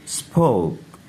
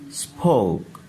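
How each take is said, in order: Both takes have the same delivery.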